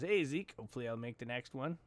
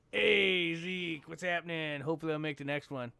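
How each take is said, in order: First: Said in the usual way. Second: Imitated viewer voice. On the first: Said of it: "In that kind of voice". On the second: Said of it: "In that kind of voice, you know".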